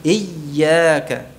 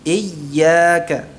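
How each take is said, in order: Both takes have the same delivery.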